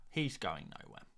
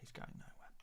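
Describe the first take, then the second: First: Said in the usual way. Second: Hushed whispered echo. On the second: Real, not acted. Streamer reassuring viewers about the player, in a whisper. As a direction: repeat it under your breath, barely audible. Hushed repeat of his own words.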